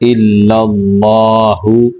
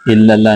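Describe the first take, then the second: First: The word ends with a final 'u' vowel. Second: The word ends without a final 'u' vowel. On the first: The speaker calls it right. "बल्कि इल्लल्लाहु" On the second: The speaker calls it wrong. "इल्लल्लाह नहीं पढ़ना"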